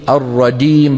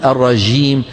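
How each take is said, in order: First: The j is blended with a d sound. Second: The j is soft, with flowing friction. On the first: "مخلوطة بالدال، ما يصح" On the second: "لا نقول الرجيم. هذه الجيم شو؟ رخوة"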